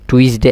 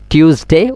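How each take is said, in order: First: টুইসডে as "twis-dey", falling at the end; mistaken TUESDAY. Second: টিউসডে as "tyoos-dey", higher, rising at the end; corrected TUESDAY. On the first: Teacher showing students how not to recite, টুইসডে as "twis-dey". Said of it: "এভাবে না হন". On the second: Teacher reciting the list correctly, টিউসডে as "tyoos-dey". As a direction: start টিউসডে with "tyoos" and lift it. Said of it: "ঠিক হইবেন". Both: Shown as a demonstration.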